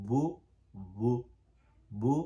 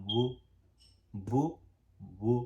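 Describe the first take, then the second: No difference in how they are said.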